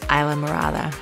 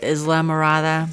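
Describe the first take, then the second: First: The name is pronounced differently from its spelling. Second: The name is pronounced as its spelling suggests. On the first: The speaker calls it right. "but it's Islamorada" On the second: The speaker calls it wrong. "It looks like Islamorada"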